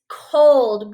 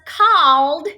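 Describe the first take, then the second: First: The vowel is a long 'oh' sound. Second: The vowel is a short 'ah' sound. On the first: The speaker calls it right. "We hear that long O sound" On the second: The speaker calls it wrong. "We don't say this as called. That sounds silly"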